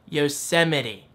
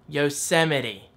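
First: The word ends with a 'mitty' sound. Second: The word ends with a 'mitty' sound.

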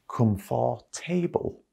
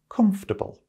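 First: The word is said with four full syllables. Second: The word is said with only three syllables. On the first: The speaker calls it wrong. "lots of people pronounce this word as comfortable" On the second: The speaker calls it right. "The correct way to pronounce this word is comfortable. ... it has three syllables"

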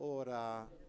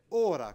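First: The final vowel is held slightly longer. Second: The final vowel is short. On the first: It is the ablative singular meaning hour. "in questo modo, ora con la A leggermente più lunga" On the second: It is the neuter plural meaning mouths or faces. "ora con la A breve"

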